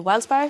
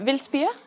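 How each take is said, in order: First: The name is said with English-style pronunciation. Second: The name is said with Danish pronunciation. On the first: It is how many foreigners say it. "a lot of internationals say wildspire" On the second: It is the native way to say it. "as you pronounce it in Danish"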